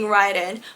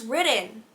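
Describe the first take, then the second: First: The first vowel sounds like in 'ride'. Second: The first vowel sounds like in 'rid'. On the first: "I'm gonna keep saying Raiden" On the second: "apparently his name is pronounced Ridden"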